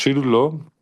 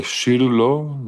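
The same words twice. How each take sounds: First: "Shiru lo" said briskly, higher and louder; quick Hebrew. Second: Shiru stretched slowly, higher and louder; drawn-out Hebrew. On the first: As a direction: toss off "Shiru lo" quickly with a lift on Shiru. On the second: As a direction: sing out "Shiru lo" slowly, leaning on Shiru. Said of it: "y dice así". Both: Shown as a demonstration.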